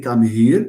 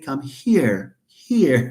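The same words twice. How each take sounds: First: Here with a voiced, buzzing Arabic-style h, louder; wrong voiced h. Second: Here with a breathy voiceless h, no buzz; just breathe out the h of here; voiceless English h. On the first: Teacher showing the class the wrong way to say here. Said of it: "You don't say". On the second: Teacher showing the class the right English here. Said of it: "You say". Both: Shown as a demonstration.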